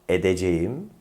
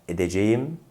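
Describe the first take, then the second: The two takes are said the same way.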